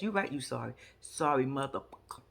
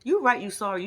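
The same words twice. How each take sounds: First: Low, soft quoted line. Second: Said in the usual way. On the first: Retold or imitated. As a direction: drop it low and quiet as a quote. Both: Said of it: "[name] said it best".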